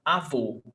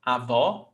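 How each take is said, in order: First: Avô with a closed, rounded final O; closed vowel. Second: Avó with an open final O; open vowel. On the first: Teacher contrasting grandfather with grandmother, closed vowel. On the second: Teacher contrasting grandmother with grandfather, open vowel. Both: Shown as a demonstration. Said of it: "it changes the sonority".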